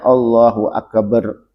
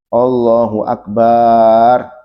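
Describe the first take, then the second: First: The b in akbar is doubled. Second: The ba syllable of akbar is drawn out long. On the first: "juga tidak boleh ditasdid baknya. ... Nggak boleh" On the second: "baknya nggak boleh dipanjangkan. ... Nggak boleh panjang baknya"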